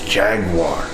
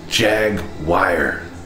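First: The word ends with a plain 'war' sound. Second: The word ends with a 'wire' sound. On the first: The speaker calls it right. "It's Jaguar" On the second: The speaker calls it wrong. "Where do you see the wire?"

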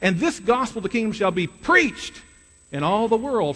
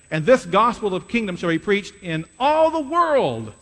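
First: The stress falls on 'preached'. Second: The stress falls on 'all the world'. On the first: The end comes when the church is actively preaching the gospel. "if you change the emphasis and put it on the word preached" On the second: The end comes when the whole world has heard the gospel. "If you put the emphasis on the words in all the world"

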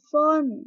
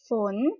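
First: The word is said with a falling tone. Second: The word is said with a rising tone. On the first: "ไม่โทฝน" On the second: "ฝนคือเสียงจัตวานั่นเองค่ะ"

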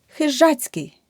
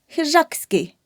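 First: A 'ts' sound comes before the ending. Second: A 'k' sound comes before the ending. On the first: The speaker calls it right. "рука, ручка у руці" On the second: The speaker calls it wrong. "Неправильно"

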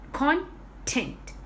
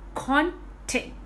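First: The stress is on the first syllable. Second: The same.

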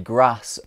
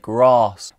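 First: It is said in a northern English accent. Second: It is said in a southern English accent. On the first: "as a northerner from England, I would say grass" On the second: "as a southerner from England, someone would say grass"

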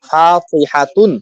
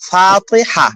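First: The word ends with a full 'tun' syllable. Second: The word ends with a soft 'h' sound. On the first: This is the full form without a pause. "মূলত নাম তো ছিল ফাতিহাতুন" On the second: This is the form used when pausing. "থামছি বলে কি হয়ে গেছে? গোলতা হা"

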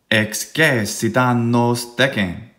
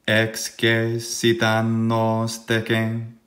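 First: It is said with strong beat-like stresses. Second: It is said in a flat monotone. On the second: "monotone dicite post me"

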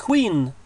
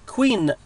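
The two takes are said the same way.

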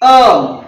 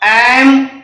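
First: The vowel is reduced and weak. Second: The vowel is full and clear.

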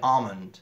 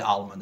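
First: The L sound is left silent in the word. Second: The L sound is pronounced in the word. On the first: The speaker calls it right. "ئەڵێ ئالمند ... ئێڵی سایلنت کردووە" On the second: The speaker calls it wrong. "ناڵێ ئالمند"

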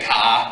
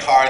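First: It is said in a Boston accent. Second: It is said in a general American accent.

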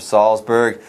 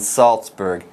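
First: The z is pronounced as a soft z sound. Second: The z is pronounced as a hard ts sound. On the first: The speaker calls it wrong. "pronounce that Z softly" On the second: The speaker calls it right. "Don't make that mistake"

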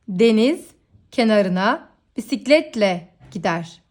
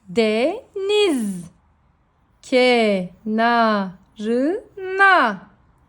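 First: The words are read smoothly without syllable breaks. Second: Each syllable is read separately with breaks. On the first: "şimdi hecelemeden okuyalım" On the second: "Önce heceleyerek okuyoruz"

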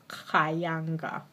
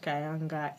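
First: The 'ha' syllable is clearly stressed. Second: The 'ha' syllable is not stressed. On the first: The speaker calls it right. "I just have to stress the ha" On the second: The speaker calls it wrong. "people tend to say Khayanga. It's not Khayanga"

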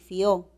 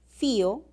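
First: The stress is on the second syllable. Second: The stress is on the first syllable.

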